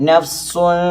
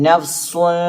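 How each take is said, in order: Both takes have the same delivery.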